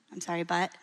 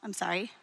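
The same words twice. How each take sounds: First: The apology undercut by a leaning "but"; "I'm sorry, but" with the weight landing on "but"; stress on but. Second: Said in the usual way. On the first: Shown as a demonstration. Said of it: "It's typically how, what people say". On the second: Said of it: "how do you apologize?".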